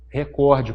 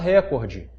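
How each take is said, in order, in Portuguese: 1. A tônica está na segunda sílaba. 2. A tônica está na primeira sílaba. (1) "a palavra na gramática é o quê? Recorde, portanto, sem acento" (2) "Tem gente que fala recorde. Quem fala recorde vai acentuar"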